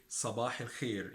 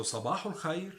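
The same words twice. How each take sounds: First: صباح الخير as "sabah il-kheer"; Egyptian pronunciation. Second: صباح الخير as "sabahu l-khayr", higher and rising; Standard Arabic pronunciation. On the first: Teacher sums up the dialect form, Egyptian pronunciation. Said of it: "in Egyptian dialect". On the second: Teacher sums up the formal form, Standard Arabic pronunciation. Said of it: "in standard Arabic". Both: Shown as a demonstration.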